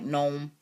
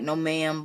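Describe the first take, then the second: First: It is run together into one syllable. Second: It is said as two separate words. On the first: "but all together real country like gnome" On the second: "like no ma'am"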